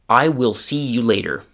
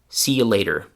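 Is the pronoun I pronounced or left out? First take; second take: pronounced; left out. First: The pronoun I is fully pronounced. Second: The pronoun I is left out entirely. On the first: "the classroom pronunciation of a sentence" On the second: "the version where the I is gone"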